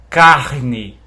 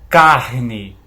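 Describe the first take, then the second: No difference in how they are said.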